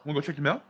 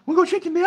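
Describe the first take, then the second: First: Said in the usual way. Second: High and louder, gasping with excitement; eager gasp, then a much higher, louder question to the dogs; excited pet voice. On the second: Real, not acted. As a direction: hype the dogs up for a walk. Asking dogs, plain then excited.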